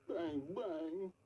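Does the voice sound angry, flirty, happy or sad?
sad. It is said in a sad tone.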